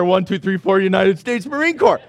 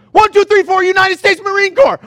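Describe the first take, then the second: First: Said in the usual way. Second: Loud, higher drill shout of a Marine; shouted Marine battle cry; Marine count-off. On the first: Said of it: "his wonderful prayer". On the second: Retold or imitated. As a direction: bark it like a Marine charging in. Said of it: "he goes".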